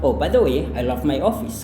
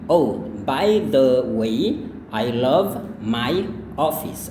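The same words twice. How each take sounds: First: The phrase is spoken at a faster pace. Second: The phrase is spoken at a normal pace. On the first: "sekali lagi lebih cepat" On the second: "Sekali lagi"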